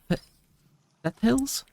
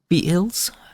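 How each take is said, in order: First: The first vowel is short, as in 'feather'. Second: The first vowel is long, as in 'feet'. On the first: "or like feather?" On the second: "as in feet"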